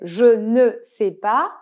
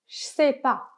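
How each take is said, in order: First: Every syllable of the phrase is said in full. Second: The phrase is squeezed into fewer, contracted syllables. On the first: "Donc on avait je ne sais pas" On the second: "à l'oral, vous pouvez entendre des Français dire"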